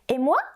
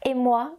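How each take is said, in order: First: The pitch rises at the end. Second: The pitch falls at the end. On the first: "the first question with the rising intonation" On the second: "the second question with the falling intonation"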